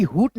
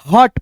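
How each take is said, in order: First: हुट with an "oo" vowel; mistaken u vowel. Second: हट with a short "uh" vowel, like English "hut"; short a sound. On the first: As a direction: say हुट with the u sound, as a misreading. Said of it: "हुट नहीं पढ़ना है". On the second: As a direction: say हट with अ, not u. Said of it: "ह में अ का ध्वनि". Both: Shown as a demonstration.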